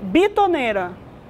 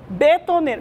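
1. A primeira vogal é pronunciada como 'i'. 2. A primeira vogal é pronunciada como 'e'. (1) "estão me corrigindo que é bitoneira" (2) "Eu falei betoneira a matéria inteira"

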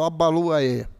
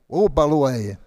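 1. O nome começa com um som de A. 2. O nome começa com um som de O. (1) "eu falo Abaluaê" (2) "é Obaluaê, o"

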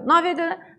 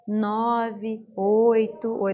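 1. Os dígitos são ditos rápido, sem pausas. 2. Os dígitos são ditos devagar, com pausas. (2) "você não fala assim ... Pausado"

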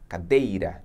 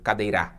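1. A tônica cai na sílaba do meio. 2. A tônica cai em outra sílaba, não na do meio. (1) "D é a sílaba mais forte" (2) "ou cadeira"

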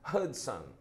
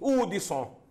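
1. É dito com sotaque do inglês americano. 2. É dito com sotaque nordestino brasileiro. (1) "como eles dizem lá nos Estados Unidos" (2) "E bem nordestino"

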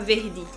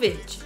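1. É falada com um sotaque nordestino do Brasil. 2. É falada com um sotaque brasileiro que não é nordestino. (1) "Quando eu morei no Nordeste, ... Eu falava verde" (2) "Eu falo verde"

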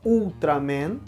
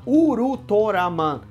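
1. É falado como os brasileiros falam, Ultraman. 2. É falado como os falantes japoneses falam, Urutoraman. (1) "a gente fala Ultraman" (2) "mas eles falam lá Urutoraman"

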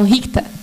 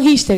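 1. O nome é pronunciado do jeito alemão. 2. O nome é pronunciado do jeito do português brasileiro. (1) "são bem alemão, eles falam Richter" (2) "eles nem falam Richter"

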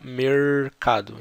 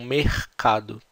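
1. É dito com sotaque do interior, do campo. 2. É dito com sotaque do Rio de Janeiro. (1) "no interior se fala mercado" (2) "No Rio eles falam mercado"

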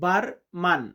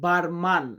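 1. শেষ অক্ষরে খোলা 'ah' স্বর আছে। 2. শেষ অক্ষরে খোলা 'ah' স্বর আছে।

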